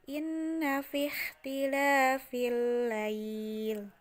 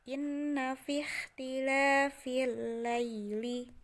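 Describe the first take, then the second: First: The phrase ends on a stopped l sound. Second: The phrase ends with a final i vowel. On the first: The reading stops at this point. "kalau mewakofkan" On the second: The reading continues without stopping. "ketika tidak akan mewakofkan"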